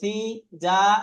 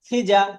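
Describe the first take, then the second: First: The vowels are stretched out long. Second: The vowels are kept short and quick. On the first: The speaker calls it wrong. "টান দিয়ে" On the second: The speaker calls it right. "তখন আর টানটা দেব না"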